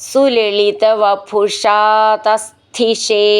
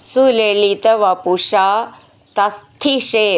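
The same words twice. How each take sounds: No difference in how they are said.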